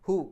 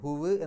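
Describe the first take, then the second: First: The word ends on a plain u vowel. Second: The word ends with an added w sound. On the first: The speaker calls it right. "ആ ചെറിയ ഒരു വാവിൻ്റെ ശബ്ദം മാത്രമേ കേൾക്കുള്ളൂ" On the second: The speaker calls it wrong. "ഹുവ് എന്നല്ല"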